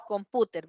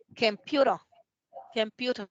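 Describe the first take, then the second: First: "computer" with Spanish vowels, com-PU-ter; read as spelt. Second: "computer" as kem-PYU-ro; English reading. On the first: Teacher showing students the literal reading, "computer" as com-PU-ter in Spanish sounds. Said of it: "Literalmente así es como se lee". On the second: Teacher reading the phonetic symbols, "computer" the English way, kem-PYU-ro. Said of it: "si la leemos en inglés". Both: Shown as a demonstration.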